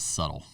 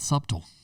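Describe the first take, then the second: First: The b in the middle is silent. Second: The b in the middle is sounded. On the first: The speaker calls it right. "It is subtle" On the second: The speaker calls it wrong. "it's not subtle"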